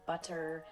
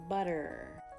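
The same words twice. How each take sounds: First: The middle consonant is a crisp hard T. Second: The middle consonant is a light D-like tap. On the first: "Using that true hard T" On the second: "The flap T basically sounds like D, a light D sound"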